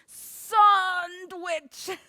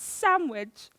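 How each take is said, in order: First: The D sound is clearly pronounced. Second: The D sound is left out. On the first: The speaker calls it wrong. "When people pronounce the D in sandwich?" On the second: The speaker calls it right. "It's sandwich"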